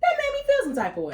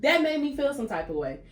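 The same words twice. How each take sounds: First: Very high, fast squeal of protest; high-pitched indignation. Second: Raised-pitch protest at normal pace; indignant. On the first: Woman venting about being judged, high indignant squeal. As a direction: rush it out way up high. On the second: Woman venting about being judged, indignant restatement. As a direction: repeat it high but controlled. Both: Real, not acted.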